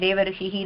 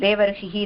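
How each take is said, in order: Both takes have the same delivery.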